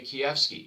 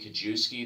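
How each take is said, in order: First: The surname is pronounced with Polish sounds. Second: The surname is pronounced with English sounds. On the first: "If my Polish mother, who was born in Poland, is in the room" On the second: "the anglicized version"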